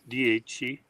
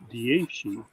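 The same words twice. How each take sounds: First: The middle consonant is a ch sound. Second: The middle consonant is a sh sound. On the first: This is the form taught in classes. "was what we were we had learned" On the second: This is how people in Florence say it. "the Florentines uh, pronounce it dieci, like uh, without uh, shi, not a chi"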